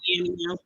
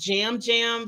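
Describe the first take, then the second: First: The name begins with a Y sound. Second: The name begins with a J sound. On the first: This is how the name looks from its spelling. "my vision say Yam Yam" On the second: This is how the name is said where he comes from. "They pronounce the Y's like a J"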